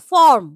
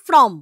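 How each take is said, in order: First: Said in the usual way. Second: ফ্রম with r moved before the vowel; the wrong form ফ্রম; mispronounced foreign word. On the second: Shown as a demonstration. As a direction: say ফ্রম, sliding r and m together. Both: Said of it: "হয়ে যাচ্ছে ফ্রম".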